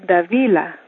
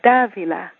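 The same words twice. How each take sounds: First: The stress is not on the first syllable. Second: The stress is on the first syllable. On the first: The written name has no accent mark. "If there wasn't an accent, you'd say" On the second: The written name has an accent mark on the first A. "because in my name there's an accent on the first A, you say"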